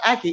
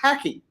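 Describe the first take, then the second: First: The word begins directly with a vowel sound. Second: The word begins with an h sound. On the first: This is the usual way of saying it. "the word is not aki" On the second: This is how the word was learned from an older relative. "it's haki"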